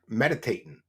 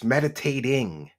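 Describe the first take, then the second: First: The final g sound is dropped. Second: The final g sound is pronounced. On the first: This mimics someone else's way of saying it. The speaker calls it wrong. "she can't say the letter G at the end of a word" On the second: This is the proper way to say it. The speaker calls it right. "It's meditating"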